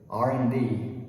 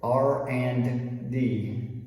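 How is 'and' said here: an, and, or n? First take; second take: an; and. First: The word and is said as an, no D. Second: The word and is said in full with D. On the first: "the D at the end of and disappears and it becomes an" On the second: "people don't say R and D"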